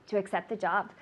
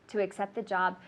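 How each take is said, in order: The two takes are said the same way.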